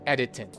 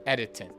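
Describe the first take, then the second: The two takes are said the same way.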